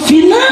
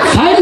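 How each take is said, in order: First: The word ends with an added 'a' vowel. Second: The word ends without any added vowel. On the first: The speaker calls it wrong. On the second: The speaker calls it right.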